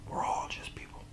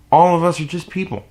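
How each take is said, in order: First: Breathy whispered reminder. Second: Higher, firmer restatement. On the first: Whispering to the viewers that we're all people. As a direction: whisper it as a quiet truth. Whispered aside after a rant. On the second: Follows the whispered line. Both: Real, not acted.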